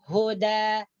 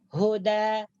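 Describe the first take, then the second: Both takes have the same delivery.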